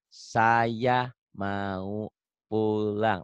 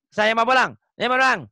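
First: "Saya mau pulang" stretched out very slowly, each word apart; slow careful reading. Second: Rushed loud reading. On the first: Teacher showing his student how to read slowly, very slow and careful. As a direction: read "Saya mau pulang" syllable by syllable, taking your time. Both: Shown as a demonstration. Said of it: "Latihan pelan-pelan".

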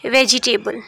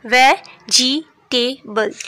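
First: Said in the usual way. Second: वेजिटेबल stretched very slowly, syllable by syllable; slow syllable split. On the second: Shown as a demonstration. Teacher showing the syllables of a word to the class, very slow. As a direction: draw out वेजिटेबल so each syllable is heard. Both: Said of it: "इसमें देखें three syllables हैं".

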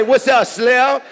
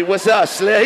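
First: Higher, louder mock greeting; mimicking his greeting. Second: Said in the usual way. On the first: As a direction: parrot the guy's greeting back, pitched up. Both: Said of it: "He say".

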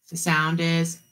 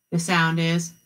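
No difference in how they are said.

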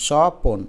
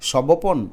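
First: স্বপন said as shɔpon, the ব silent; correct standard reading. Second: সবপন read letter by letter as sɔ-bo-pon; spelling-based wrong reading. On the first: Teacher gives the right reading স্বপন. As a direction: say স্বপন with the ব swallowed. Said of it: "আমরা উচ্চারণ করি স্বপন". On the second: Teacher demos the wrong literal reading সবপন. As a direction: say সবপন sounding every letter. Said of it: "তার মানে তো সবপন হওয়ার কথা না". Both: Shown as a demonstration.

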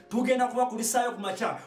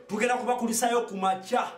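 No difference in how they are said.

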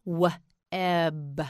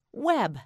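First: W-eb split into "wuh" and "eb"; W-eb in two slow parts with a gap; sounded out. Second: Said in the usual way. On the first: Shown as a demonstration. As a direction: break W-eb after the first sound. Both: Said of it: "Say web".

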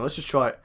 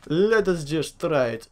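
First: Said in the usual way. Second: Drawn-out, careful repeat; slow and deliberate. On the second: Real, not acted. Player about to try something, slow and deliberate. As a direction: stretch each word out deliberately.

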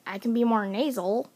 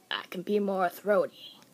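First: Pinched nasal voice; more nasal delivery. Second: Lower, throaty voice. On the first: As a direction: push the voice into the nose. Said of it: "making a voice more nasal". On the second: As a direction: drop it back into the throat. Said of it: "or throaty can change a lot". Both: Shown as a demonstration.

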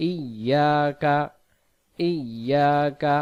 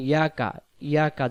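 First: ইয়াকা slow as "iyyaaka", y doubled; correct recitation. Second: ইয়াকা said quickly as plain "yaka"; mistaken pronunciation. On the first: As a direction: draw out ইয়াকা in a chant from a clear "i". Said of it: "এখানে হবে". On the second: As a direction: say ইয়াকা short, dropping the opening "i". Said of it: "উচ্চারণটা কি ভুল". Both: Shown as a demonstration.

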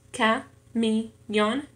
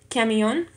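First: "camión" slowly split into its syllables. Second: Said in the usual way. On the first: Shown as a demonstration. Learner counting syllables in a Spanish exercise, "camión" syllable by syllable. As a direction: break "camión" into separate syllables, a pause after each. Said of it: "en tres sílabas". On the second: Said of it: "camión en tres sílabas".

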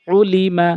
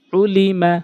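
The two takes are said the same way.

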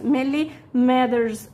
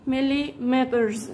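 First: "مليمترز" said slowly with the t turned into a d; teacher modelling the American "مليمترز" with a d; soft d. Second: "مليمترز" said slowly with a clear t; teacher modelling "مليمترز" with the full t. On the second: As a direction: say "مليمترز" slowly, crisp t sound. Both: Shown as a demonstration. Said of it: "الاتنين صح".

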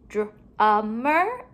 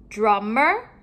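First: DRUMMER split before the ending, rising at the end; broken apart. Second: Said in the usual way. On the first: Shown as a demonstration. Teacher comparing word endings for pupils, sounds pulled apart. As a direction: stretch DRUMMER into separate sounds.

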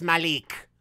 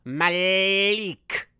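First: Said in the usual way. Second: "Malik" with the last syllable stretched very long; exaggerated, lingering "Malik"; drawn-out pronunciation. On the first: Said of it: "It's none of them. It's". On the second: Shown as a demonstration. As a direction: draw out "Malik" slowly, mock-correcting. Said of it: "Is this Malik or Malik? I always pronounce it wrong".

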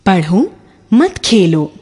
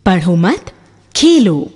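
First: "पढ़ो मत खेलो" slow, with "मत" leaning toward "खेलो", no break after "पढ़ो"; stress on मत. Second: "पढ़ो मत" ending on a rise, a pause, then "Khelo" separate and falling; pause after मत. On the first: Teacher reading the first version to students, slow, "मत" stressed. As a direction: read "पढ़ो मत खेलो" as one slow phrase, weight on "मत". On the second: Teacher showing students where the comma goes, pause after "मत". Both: Shown as a demonstration. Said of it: "विराम चिन्ह".

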